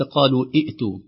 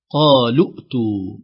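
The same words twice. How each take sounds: First: قالوا ائتوا with the waw held long and the hamza pronounced; separated قالوا then ائتوا; wrong long vowel. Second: قالوا ائتوا with the waw and the hamza dropped, qalu-tu; slow, louder قالوا ائتوا joined without the long u; correct joining. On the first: Teacher demonstrating the wrong pronunciation. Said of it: "وليس". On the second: Teacher demonstrating the correct linking. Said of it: "وليس قالوا ائتوا". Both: Shown as a demonstration.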